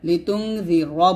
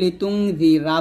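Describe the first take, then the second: First: The word ends on a heavy r with no vowel. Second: An extra a vowel follows the final r. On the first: The speaker calls it right. "রটাকে মোটা করে উচ্চারণ করবেন" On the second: The speaker calls it wrong. "রটাকে আমরা রা উচ্চারণ করি"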